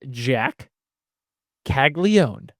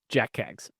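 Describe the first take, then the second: First: The surname is said with several syllables. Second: The surname is said as one short syllable. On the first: The speaker calls it right. "the proper way to say it is Caglione" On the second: The speaker calls it wrong. "because that is just awesome"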